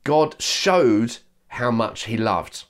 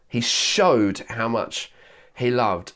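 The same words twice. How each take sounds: First: Slow, each word weighed, God stressed; a preacher lingering on the quote; slow emphatic quote. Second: Showed leaned on, slow and deliberate; slow repeat weighing showed; stress on showed. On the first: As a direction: lean on God, slowly. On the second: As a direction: press the word showed. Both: Shown as a demonstration. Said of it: "the writer says".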